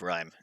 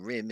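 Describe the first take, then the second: First: The vowel is a long 'eye', as in 'rhyme'. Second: The vowel is short, as in 'rim'. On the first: The speaker calls it right. "instead of rhyme" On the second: The speaker calls it wrong. "I was saying rim"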